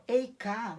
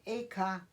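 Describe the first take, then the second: First: Eiká said "ei-ká" with a diphthong and a louder falling hit; Eiká pronounced "ei-ká", the first syllable as "ei"; Eiká, first take. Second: Eiká said "e-ká" with a plain "e", no diphthong; corrected Eiká, pronounced "é-ká"; Eiká with a plain "e" and a falling tune. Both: Shown as a demonstration. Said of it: "na realidade".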